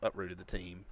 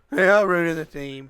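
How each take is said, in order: First: Said in the usual way. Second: "They uprooted the team" said higher, louder and slower; emphatic repeat. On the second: Real, not acted. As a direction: stretch out "uprooted" with loud emphasis. Repeats phrase, second time emphatic.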